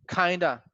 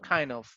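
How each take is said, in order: First: The two words blend quickly into one word. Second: The two words are said fully and separately.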